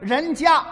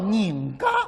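First: It is said in standard Mandarin. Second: It is said in Shanghainese.

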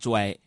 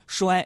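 First: It is pronounced zhuai, Northeastern style. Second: It is pronounced shuai, standard Mandarin style.

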